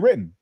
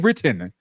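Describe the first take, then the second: First: It is said with an American-sounding pronunciation. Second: It is said with a British-sounding pronunciation. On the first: "but I think in America, I'm gonna say written" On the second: "I'm not gonna say written. Who says written? Nobody says that. British people might say that"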